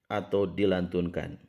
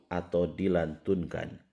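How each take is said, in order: No difference in how they are said.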